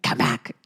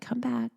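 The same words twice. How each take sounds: First: It is said in a firm, commanding tone. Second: It is said in a soft, tender tone. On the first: The wandering mind is ordered back. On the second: The wandering mind is coaxed back kindly.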